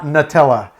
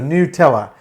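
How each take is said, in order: First: The first vowel is a plain English u sound. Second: The first vowel is a rounded German ü sound. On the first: It names the hazelnut spread. "as we would pronounce the hazelnut flavored spread" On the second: It names the beer, not the spread. "it has an umlaut over the U"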